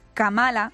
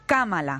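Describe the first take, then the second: First: The stress is on the second syllable. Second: The stress is on the first syllable. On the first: The speaker calls it wrong. "no es Kamala" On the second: The speaker calls it right. "esdrújula"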